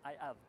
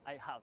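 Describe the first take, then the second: First: The h in 'have' is dropped. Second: The h in 'have' is pronounced. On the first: "dicen I have" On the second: "No pronuncian la H como I have"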